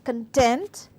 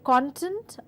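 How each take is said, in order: First: The stress is on the second syllable. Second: The stress is on the first syllable. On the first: The word is used as a verb. "when I stress on the second part of the word" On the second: The word is used as a noun. "I'm stressing on the first word, first part of the word, hence it is a noun"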